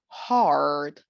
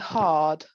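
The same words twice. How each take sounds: First: The R after the vowel is clearly pronounced. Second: The R after the vowel is not pronounced. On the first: "but now we do hard" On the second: "In the British part, we had the lips quite neutral"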